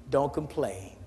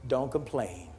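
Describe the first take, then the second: Both takes have the same delivery.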